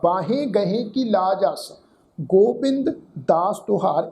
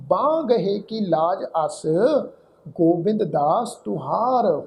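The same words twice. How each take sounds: First: Slow verse recital with ਬਾਹੇ in two syllables, baa-he; common wrong reading. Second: Slow verse recital with ਬਾਂਹ as one long nasal syllable; corrected reading. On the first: Retold or imitated. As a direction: sound the 'he' in ਬਾਹੇ while reciting slowly. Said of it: "ਇਸ ਢੰਗ ਨਾਲ ਉਚਾਰਨ ਕੀਤਾ ਜਾਂਦਾ". ('ਬਾਹੇ' ਵਿੱਚ 'ਹੇ' ਬੋਲ ਕੇ ਪਾਠ) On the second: Shown as a demonstration. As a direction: recite slowly, no 'he' on ਬਾਂਹ. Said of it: "ਉਹ ਕੀਤੀ ਜਾਏਗੀ ਬਾਂਹ". ('ਬਾਂਹ' ਇੱਕੋ ਉਚਾਰ ਵਿੱਚ, ਹੌਲੀ ਪਾਠ)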